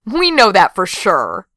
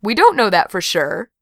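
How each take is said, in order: First: Slow, insistent "We know"; firm, falling "We know that for sure"; emphatic contradiction. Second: Said in the usual way. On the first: A narrator's reading. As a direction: lean on "We" and draw the line out. Crow contradicts the previous speaker.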